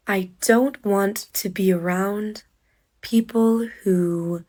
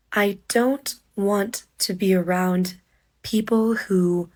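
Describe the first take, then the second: No difference in how they are said.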